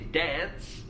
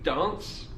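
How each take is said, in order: First: It is said in an American accent. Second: It is said in a southern British accent. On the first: "someone in America might say dance" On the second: "I may say dance"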